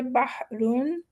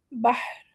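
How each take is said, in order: First: بحرن with the final n of tanween sounded. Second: بحر with the ending stopped and no n; بحر stopped short; stopped with jazm. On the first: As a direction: say بحرن with a clear nun ending. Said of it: "ہمارے پاس دو options ہے". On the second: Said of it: "جزم دے دیں گے". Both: Shown as a demonstration.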